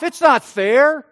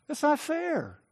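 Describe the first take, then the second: First: Slow, loud "It's not fair" with "not" pushed up; a wounded, indignant cry of unfairness; loud protest. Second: A hurt, sulky grumble under the breath; quiet sulk. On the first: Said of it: "but he answered his father". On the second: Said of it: "And then he goes on to say". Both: Retold or imitated.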